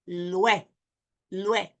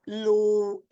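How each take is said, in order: First: Lue as one syllable, "lweh"; correct diphthong. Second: Lue stretched as "loo... eh"; wrong split vowels. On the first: Teacher showing what it is, joined diphthong. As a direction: glide straight from u into e in lue. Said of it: "it's lue". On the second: Teacher showing what it's not, split vowels. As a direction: say lue slowly in two syllables. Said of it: "So it's not lue". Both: Shown as a demonstration.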